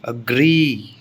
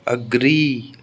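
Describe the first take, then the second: Both takes have the same delivery.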